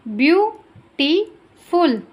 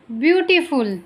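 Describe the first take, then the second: First: ब्यूटीफुल in three parts, ब्यू, टी, फुल; spaced-out syllables, ब्यू... टी... फुल. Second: Said in the usual way. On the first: Shown as a demonstration. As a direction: pause after each beat of ब्यूटीफुल. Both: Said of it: "जितने syllable होंगे".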